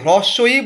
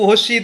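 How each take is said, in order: First: The letter name is pronounced fully and clearly. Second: The letter name is clipped and slurred together. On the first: The speaker sounds educated and careful. The speaker calls it right. "আপনার আগের জন হ্রস্বই বলেছে" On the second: The speaker may lose marks in an interview. The speaker calls it wrong. "আর আপনি ... হস্যি দীর্ঘি ... এইসব বলেছেন"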